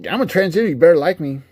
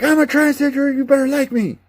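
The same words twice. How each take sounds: First: Higher, louder demanding parody; mock preachy character. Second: Much higher, louder shrill parody; mock preachy character. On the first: Mocking a preachy game character: higher demanding voice. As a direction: fling it out like a pushy caricature. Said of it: "He's not like". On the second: Mocking a preachy game character: much higher mocking squeal. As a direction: squeal it as an over-the-top caricature. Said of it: "come out and be like".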